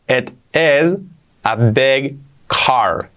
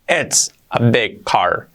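First: The words 'it is' are said in full. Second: The words 'it is' are contracted together.

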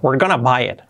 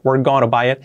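First: Going to is said fast and reduced to gonna. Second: Going to is said in full, word by word.

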